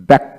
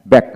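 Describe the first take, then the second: No difference in how they are said.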